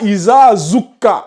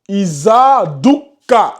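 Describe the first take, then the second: First: The second word starts with a z sound. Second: The second word starts with a d sound. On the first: The speaker calls it wrong. "c'est pas Isa zukka" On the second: The speaker calls it right. "On a ici za et dou"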